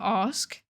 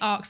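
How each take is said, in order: First: The s sound comes before the k sound. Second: The s and k sounds are swapped: 'aks'. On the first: This is how the speaker says it now after retraining. "I say ask instead of arcs" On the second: This is how the speaker said it growing up near London. "I used to say arcs instead of ask"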